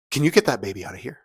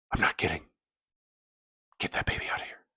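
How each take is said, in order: First: Quick, louder question, played for effect; acted annoyed request. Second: Low-volume, whispered insistence; acted stern hush. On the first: Woman seated in front to the new parents, acted irritated request. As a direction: imitate an irritated woman turning round. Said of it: "let me do this for effect". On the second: Woman in church insisting to the parents, stern whisper. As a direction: imitate a hushed, deadly serious demand.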